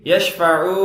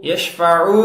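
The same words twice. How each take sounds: Both takes have the same delivery.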